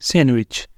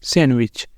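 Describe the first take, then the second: No difference in how they are said.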